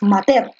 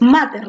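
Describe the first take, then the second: First: The stress is on the last syllable. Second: The stress is on the first syllable. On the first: The speaker calls it wrong. "no dices mater" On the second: The speaker calls it right. "porque tú dices mater"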